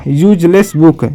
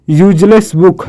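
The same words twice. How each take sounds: The two takes are said the same way.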